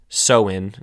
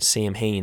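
First: The word is not sounded out letter by letter. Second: The word is sounded out letter by letter.

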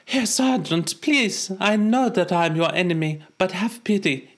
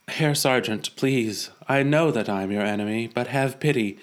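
First: It is spoken with a put-on German accent. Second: It is spoken without a German accent.

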